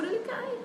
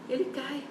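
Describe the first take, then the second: First: Ele cai, ele cai pitched far higher; high dramatic fall. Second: Said in the usual way. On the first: Shown as a demonstration. Pregadora repete a queda, dizendo "ele cai" bem agudo. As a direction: lift "ele cai" up high and let it drop quietly. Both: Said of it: "preacher repeats the fall twice".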